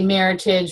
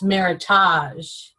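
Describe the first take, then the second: First: It is said to rhyme with heritage. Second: It is said not rhyming with heritage. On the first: The speaker calls it right. "make sure you say Meritage, rhymes with heritage" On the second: The speaker calls it wrong. "the Psalm corrected her and said, I'm sorry, it's Meritage"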